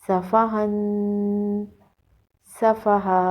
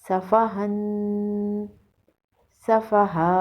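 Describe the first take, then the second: Both takes have the same delivery.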